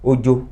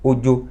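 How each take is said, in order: No difference in how they are said.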